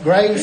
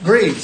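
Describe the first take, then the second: First: The vowel sounds like the one in 'grave'. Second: The vowel sounds like the one in 'grieve'. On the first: The speaker calls it wrong. "Did I pronounce that Graves or" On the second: The speaker calls it right. "I apologize. We'll get that right too"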